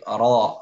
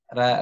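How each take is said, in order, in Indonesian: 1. R-nya berat dan gelap, dengan resonansi berongga. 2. R-nya ringan dan datar, dengan resonansi jelas. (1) "ro tebal" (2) "akan datar"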